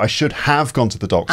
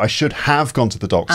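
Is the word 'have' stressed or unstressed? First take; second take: stressed; stressed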